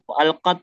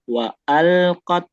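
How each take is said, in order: First: The word is said quickly and abruptly. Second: The word is said slowly and flowingly. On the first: The speaker calls it wrong. "Jangan terlalu cepat, jangan wa'alqat" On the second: The speaker calls it right. "tapi wa'alqat"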